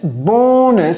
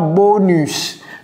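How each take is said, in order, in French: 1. Le mot est prononcé à l'anglaise. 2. Le mot est prononcé à la française.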